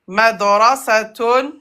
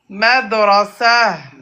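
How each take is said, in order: First: The word ends with a full -tun syllable. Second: The word ends with a soft h sound.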